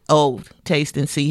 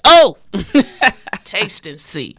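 First: The 'oh' is said flatly, without emphasis. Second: The 'oh' is said with strong emphasis. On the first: The speaker calls it wrong. "it's not like" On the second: The speaker calls it right. "we need to put emphasis on the, "Oh, taste and see.""

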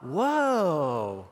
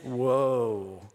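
First: The word is said lightly, without depth. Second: The word is said in a deep, heavy voice. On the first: The speaker calls it wrong. "it's not woe" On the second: The speaker calls it right. "it's the deep woe. It's the bad woe"

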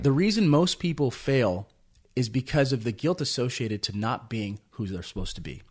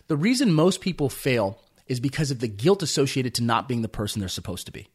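First: It is said more slowly, letting it sink in. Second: It is said at a normal, faster pace.

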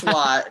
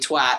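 First: The word is said in an American accent. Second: The word is said in a Scottish accent. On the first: The speaker calls it wrong. "Americans typically say twats and how we're idiots for thinking that it's twat" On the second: The speaker calls it right. "it's actually twat"

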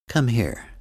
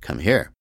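First: It is said in a gentle, warm tone. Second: It is said in a harsh, combative tone.

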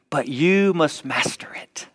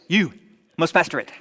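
First: It is read in the speaker's normal voice. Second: It is said in a dubbed kung fu movie voice.

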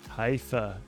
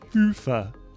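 First: The name is said in a non-European way. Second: The name is said the European way. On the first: The speaker calls it wrong. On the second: The speaker calls it right.

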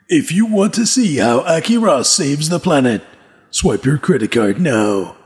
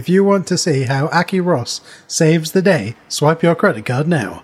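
First: It is said in a grand, impressive voice. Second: It is said in a plain, ordinary voice.

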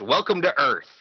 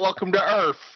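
First: Earth is said crisply and clearly enunciated. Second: Earth is slurred into a drawn-out URF. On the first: This is how the line was actually said in the film. The speaker calls it right. "He enunciates it perfectly" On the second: This is how people misremember the line. The speaker calls it wrong. "It's not welcome to Earth, even though that's what everyone says"

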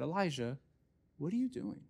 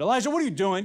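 First: It is said in a gentle, curious tone. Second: It is said in an angry, scolding tone.

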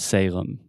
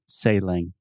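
First: The ending closes the lips fully on m. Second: The ending is a nasal vowel without closing lips. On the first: The speaker calls it right. "we're going to close our mouth completely" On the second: The speaker calls it wrong. "your natural tendency as a Brazilian, as a Portuguese speaker, is to say exactly what you said"

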